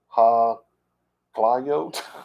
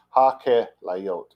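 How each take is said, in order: First: It is said with the modern pronunciation. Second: It is said with the Biblical pronunciation. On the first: The speaker calls it wrong. "modern ha-klayot or ha-klayot. ... that's so wrong" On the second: The speaker calls it right. "is how it's pronounced properly in the Bible"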